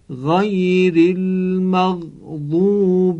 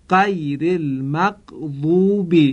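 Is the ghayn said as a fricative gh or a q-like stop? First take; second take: fricative gh; q-like stop. First: The ghayn is said as a fricative gh. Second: The ghayn is said like a q stop. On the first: The speaker calls it right. "تلفظ صحیح غین به این صورت است" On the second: The speaker calls it wrong. "باید دقت کرد تا غین در این دو موضع مانند قاف تلفظ نشه، یعنی به این صورت"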